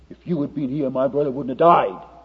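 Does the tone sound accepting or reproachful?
reproachful. The tone is reproachful and accusing. The listener is blamed for failing a friend. "Martha was this way"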